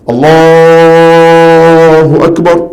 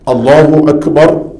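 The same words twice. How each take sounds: First: The phrase is stretched out long and drawn. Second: The phrase is said briskly at ordinary length. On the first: The speaker calls it wrong. "panjang tu" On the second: The speaker calls it right. "Baca biasa saja"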